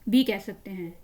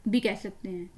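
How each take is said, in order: No difference in how they are said.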